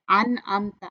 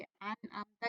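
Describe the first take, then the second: First: अन अमता with a nasal noon; wrong way. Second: अन अमता with a crisp clear noon; izhar, no nasal hum in अन अमता; clear reading. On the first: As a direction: demo of अन अमता with the noon through the nose. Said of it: "अन अमता नहीं पढ़ेंगे". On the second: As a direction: read it clear and plain. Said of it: "अन अमता clear पढ़ेंगे". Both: Shown as a demonstration.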